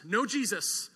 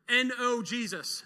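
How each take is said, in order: First: No said as one stressed word, falling. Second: N O spelled letter by letter, slowly. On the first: Preacher resolving the spelled letters into the word no. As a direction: land hard on no. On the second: Preacher teaching a wordplay, spelling N O slowly. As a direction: spell N O out deliberately before Jesus. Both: Shown as a demonstration.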